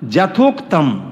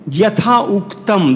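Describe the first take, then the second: First: যথোক্তম said as one joined word, without a break. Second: যথা উক্তম said slowly as two separate words, যথা and উক্তম pulled apart; split syllables. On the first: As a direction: run it together as যথোক্তম. (যথোক্তম এক শব্দে জুড়ে বলা) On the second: (যথা আর উক্তম আলাদা করে ধীরে) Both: Shown as a demonstration. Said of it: "দেখুন রয়েছে না".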